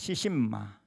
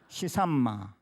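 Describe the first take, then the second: First: The middle syllable is said as 'shin'. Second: The middle syllable is said as 'san'. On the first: "시신마라 이렇게 했어요" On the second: "중국 발음에 가깝게 시산마"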